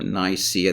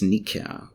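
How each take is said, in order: First: The name is said in a non-Greek way. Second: The name is said the Greek way. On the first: "this is not the way a Greek would pronounce it" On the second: "In Greek it is Nikia"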